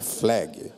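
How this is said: The word is said with English-style pronunciation. The speaker knows English well. The speaker calls it right. "ele pronuncia certo a palavra"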